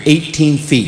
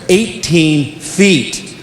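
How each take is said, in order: First: Said in the usual way. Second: Eighteen drawn out slowly, each word weighted; slow emphatic repeat. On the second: Shown as a demonstration. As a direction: let "Eighteen feet" sink in slowly.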